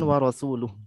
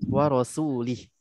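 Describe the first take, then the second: First: The word ends with an 'uh' sound. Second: The word ends with an 'ih' sound. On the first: The speaker calls it right. "bukan wa rasuluh" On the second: The speaker calls it wrong.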